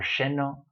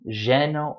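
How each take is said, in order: First: The word begins with an sh-like sound. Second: The word begins with a y-like sound. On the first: This is how speakers from Argentina and Uruguay say it. "it's going to sound like zh or sh" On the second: This is how most speakers say it. "it's going to be a y or a j sound"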